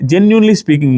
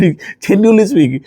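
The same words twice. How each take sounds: First: Said in the usual way. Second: Drawn out very slowly through a laugh. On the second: Real, not acted. Vlogger repeating his own phrase to viewers, laughing. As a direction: savour the phrase, chuckling.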